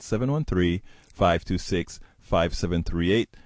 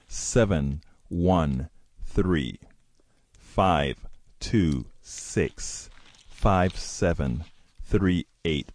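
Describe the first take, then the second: First: The number is read at normal speed. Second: The number is read slowly and deliberately.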